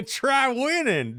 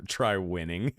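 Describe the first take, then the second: First: High slow mock. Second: Said in the usual way. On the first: Shown as a demonstration. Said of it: "repeated high, slow mock". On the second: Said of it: "plain take before mock repeat".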